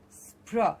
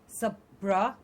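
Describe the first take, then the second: First: The s, p and r run together without a vowel. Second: A vowel is inserted between s and p. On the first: The speaker calls it right. "but spr" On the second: The speaker calls it wrong. "not like sapra"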